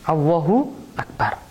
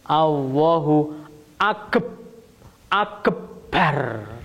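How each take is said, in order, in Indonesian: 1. Huruf b dalam akbar dibaca tunggal. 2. Huruf b dalam akbar dibaca ganda. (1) "Wis apa anane sing wis diajar" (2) "Nek dikei tasdid dadi piye?"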